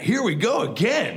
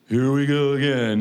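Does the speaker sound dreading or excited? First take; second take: excited; dreading. First: The voice sounds eager and full of joy. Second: The voice sounds weary and full of dread. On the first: Facing the task feels like a pleasure. "oh, yeah, ... this is great" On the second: Facing the task feels like a burden. "oh, God"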